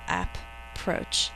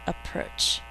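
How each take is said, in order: First: It is said as two separate, spelled-out parts. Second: It is said as one smooth, ordinary word. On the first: This is how to remember the spelling. "we think to spell" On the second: This is how it is actually spoken. "but we say"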